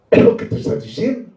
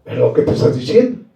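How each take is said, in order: First: Hushed whispered repeat, fast. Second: Said in the usual way. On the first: Acted. Preacher to the congregation, repeating his point in a whisper. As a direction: breathe it to the congregation like a secret.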